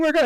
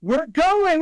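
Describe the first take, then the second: First: Said in the usual way. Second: High, loud thrilled announcement; a mother thrilled to announce the trip; excited squeal. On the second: Retold or imitated. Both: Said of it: "she's like".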